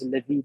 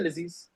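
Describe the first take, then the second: First: The consonants are pronounced as soft th sounds. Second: The consonants are pronounced as z sounds. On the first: This is the proper pronunciation. The speaker calls it right. "if you want to read it with proper pronunciation, is Ladid" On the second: This is the everyday popular pronunciation. The speaker calls it wrong. "People just say Laziz"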